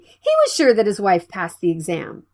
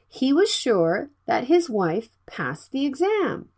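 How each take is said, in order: First: The sentence is spoken at a fast speed. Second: The sentence is spoken at a normal speed.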